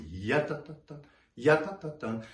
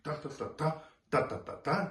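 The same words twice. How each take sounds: First: Teacher shows the right way, leaning on "ya"; one long phrase. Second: Every "ta" hit evenly, each beat separate; teacher shows the wrong choppy way, evenly punched "ta"s; choppy separate syllables. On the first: Right way, stress on the first "ya" only. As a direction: lean on the first "ya", then let "ta ta tan" flow. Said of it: "you think". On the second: Wrong way, each "ta" punched evenly. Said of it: "you don't wanna think". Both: Shown as a demonstration.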